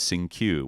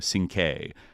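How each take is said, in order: First: The name ends with a 'kyoo' sound. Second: The name ends with a 'kay' sound. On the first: The speaker calls it wrong. "it was mispronounced as Sing-Q" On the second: The speaker calls it right. "where it should be, you know, Sing-K"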